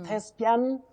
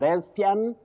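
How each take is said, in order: First: It begins with a voiceless th sound. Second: It begins with a voiced th sound. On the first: The speaker calls it right. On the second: The speaker calls it wrong.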